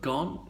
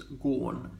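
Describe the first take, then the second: First: The vowel is short, rhyming with on. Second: The vowel is long, rhyming with corn. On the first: The current pronunciation. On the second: An old-fashioned, affected pronunciation.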